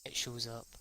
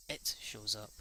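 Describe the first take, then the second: No difference in how they are said.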